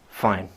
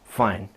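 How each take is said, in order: Both takes have the same delivery.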